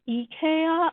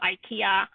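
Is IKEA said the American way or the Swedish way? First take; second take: Swedish; American. First: It is said with a Swedish pronunciation. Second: It is said with an American English pronunciation. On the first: The speaker calls it right. "It's actually pronounced IKEA, I think, in Sweden" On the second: The speaker calls it wrong. "in America, we call it IKEA because we're just awful"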